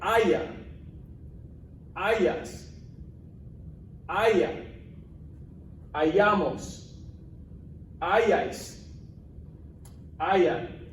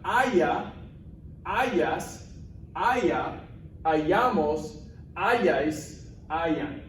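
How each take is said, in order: First: There is a long pause after each word. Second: The words follow each other without long pauses.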